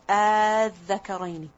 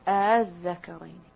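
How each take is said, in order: First: The opening vowel is drawn out long. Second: The opening hamza is softened and eased. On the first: "read it with a mad. You just put one alif and you put a mad on it" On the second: "The other way of reading it is of tasheel"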